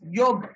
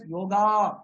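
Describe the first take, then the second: First: The word ends without a final vowel. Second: The word ends with a final vowel. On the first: This is how it is said in North India. "in North India, they say it as yog" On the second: This is the popular everyday form. "in popular usage, it is called as yoga"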